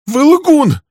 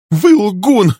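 First: The repeat pushed up to a shriek; second time, top of the voice; secretary shrieking her accusation again; shrieking even higher. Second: High, loud scream of accusation; a secretary screaming at the man. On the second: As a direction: hurl the word at him. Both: Acted. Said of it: "закричала она".

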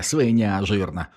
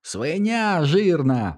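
First: Said in the usual way. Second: High, slow, delighted squealing insult; gleeful squeal. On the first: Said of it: "біснувався у відповідь Теді". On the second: A narrator's reading. Teddy gleefully squealing insults at Milo. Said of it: "радісно завищав Тедді".

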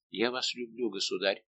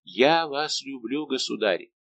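First: Soft, hushed "Я вас люблю"; a softer, intimate admission; tender confession. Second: Slow and louder, "Я" lifted; an ardent, drawn-out vow; passionate declaration. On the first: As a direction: confess it quietly, almost afraid. First confession of love. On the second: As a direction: declare it slowly and boldly. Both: A narrator's reading.

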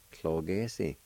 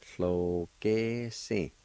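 First: Said in the usual way. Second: Very slow, drawn-out syllables. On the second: Shown as a demonstration. Teacher showing learners the word for field, slowly syllable by syllable. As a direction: hold each syllable of the word. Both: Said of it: "it's pronounced like this".

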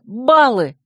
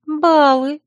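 First: БАЛЛЫ called out, higher, with falling tune; excited exclamation. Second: Higher-pitched, gentle echo with rising tune; soft echo. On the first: Heroine races round the room remembering points, excitedly. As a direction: exclaim it as a sudden realisation. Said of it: "Возбуждённая подскочила". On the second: Friend echoes the agitated heroine's word, softly. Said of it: "мягко проговорила Царья". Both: A narrator's reading.

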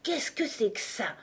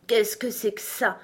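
First: Higher voice with a touch of disgust; disgusted unicorn. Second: Lazy lion, only lightly voiced; deep-voiced lion. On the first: Unicorn first noticing Alice, disgusted. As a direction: ask with understated distaste. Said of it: "d'un air de profond dégoût". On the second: Tired lion looking lazily at Alice, deep-voiced. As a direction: ask sleepily, a hint of the big lion. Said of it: "en parlant d'une voix basse et profonde". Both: A narrator's reading.

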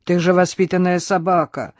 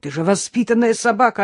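First: Scolding reminder with stress on же; lightly admonish, leaning on же; mild warning. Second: Higher, aghast reproach, stress on собака; appalled, pleading with the dog; horrified reproach. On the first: Innokenty reminds his dog it is well-bred, mildly scolding. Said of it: "предостерегающе заговорил Иннокентий". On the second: Innokenty cries to his dog in dismay. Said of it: "в ужасе закричал Иннокентий". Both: A narrator's reading.

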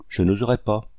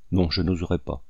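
First: Said in the usual way. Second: Understated, grim refusal; fierce resolve. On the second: A narrator's reading. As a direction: say it low-key but utterly determined. (refus farouche, contenu) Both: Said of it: "ajouta-t-il avec une énergie farouche".

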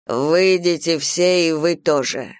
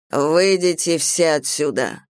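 First: Slow, more insistent order; repeated command. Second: Slow, measured order; commanding. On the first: Primal orders the gods out too, insistently commanding. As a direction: press the order on those who linger. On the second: Primal orders everyone out of the hall, commanding. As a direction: clear the room with deliberate authority. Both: A narrator's reading. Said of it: "приказал первозданный".

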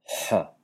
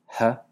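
First: H enfática, faríngea. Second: H, una h aspirada normal. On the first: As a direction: di la H enfática desde la garganta. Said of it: "y una H enfática". (H faringealizada) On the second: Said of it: "Una H normal". (H sin enfatizar) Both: Shown as a demonstration.

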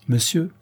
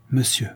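First: Solemn, higher-pitched address; formal, weighty opening; mock-grave address. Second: Mildly pleading address; understated supplication. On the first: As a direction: open gravely, like a learned examiner. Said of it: "dit le peintre en palpant le boulanger avec gravité". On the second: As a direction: start an appeal, not raising the voice. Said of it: "dit Patureau d'un ton suppliant". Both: A narrator's reading.

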